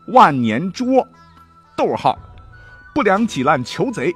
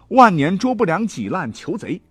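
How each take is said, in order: First: A break, spoken as comma, follows zhuo. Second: The phrase runs on without a break after zhuo. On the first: The constables with beaten backs must catch the thieves. The speaker calls it right. "正确的断法应该是什么呢？我给大家来念一念啊" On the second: The bad men are the ones being arrested. The speaker calls it wrong. "他们断成这样哈"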